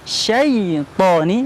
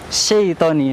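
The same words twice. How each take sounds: First: The word is said carefully with full vowel length. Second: The word is rushed and the vowel is shortened. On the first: The speaker calls it right. "harusnya bunyinya" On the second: The speaker calls it wrong. "dibaca terlalu cepat"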